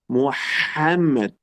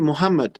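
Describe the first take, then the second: First: The middle h sound is breathy from the throat. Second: The middle h sound is plain and light. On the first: It names the prophet. The speaker calls it right. "El nombre de él es Muhammad" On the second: It names a different person. The speaker calls it wrong. "mucha gente dice Muhammad. No, Muhammad no es el nombre de él"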